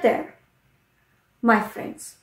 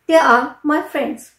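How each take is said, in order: First: They are is run together into one syllable. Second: They are is said as two full words. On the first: "contraction form कर दिया... pronounce मैंने इसी तरह से किया" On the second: "जैसे अगर मैं बोलूं दे आर माई फ्रेंड्स"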